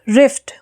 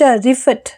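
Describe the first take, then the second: First: The f is said without a following vowel. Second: The f is followed by an added vowel. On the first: The speaker calls it right. "जिन बच्चों को फोनिक्स आते हैं वो इसको कैसे पढ़ेंगे" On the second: The speaker calls it wrong. "क्योंकि फ को पूरा बोलेंगे"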